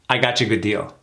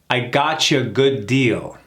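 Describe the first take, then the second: First: The sentence is said quickly at natural speed. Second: The sentence is said slowly and carefully. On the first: "A little faster" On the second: "Let's do it slow first"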